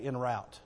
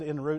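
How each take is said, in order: First: The word 'route' rhymes with 'out'. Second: The word 'route' rhymes with 'boot'. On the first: This is the speaker's own Southern way of saying it. The speaker calls it right. "I'd say en route. It's R-O-U-T" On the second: This is how another speaker with a Kansas background says it. The speaker calls it wrong. "He said en route, That Kansas influence"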